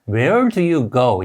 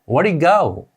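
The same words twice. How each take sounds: First: Each word is pronounced separately and fully. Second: The words are run together and reduced. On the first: This is how learners expect it to sound. "우리가 알고 있는 소리는" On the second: This is how it actually sounds in speech. "실제 소리는"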